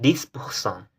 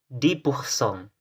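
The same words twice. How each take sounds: First: The final s of dix is pronounced. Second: The final s of dix is silent. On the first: The speaker calls it wrong. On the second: The speaker calls it right. "tidak dibaca ketika setelahnya diikuti oleh kata yang berawalan huruf konsonan"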